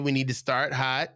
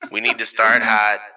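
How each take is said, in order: First: It is said in the speaker's normal voice. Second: It is said in a deflated, lame voice.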